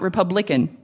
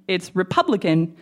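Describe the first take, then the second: First: The stress is not on the second syllable. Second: The stress is on the second syllable. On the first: The speaker calls it wrong. "not Republican" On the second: The speaker calls it right.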